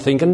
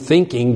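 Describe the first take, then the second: First: The ending is said as a plain n sound. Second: The ending is said with a full ng sound. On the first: "You say going, thinking" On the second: "You don't say going, thinking"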